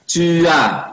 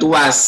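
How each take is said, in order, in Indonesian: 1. Diakhiri dengan vokal, tidak ada bunyi s. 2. Diakhiri dengan bunyi s. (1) "Tua, tua" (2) "bukan tuas"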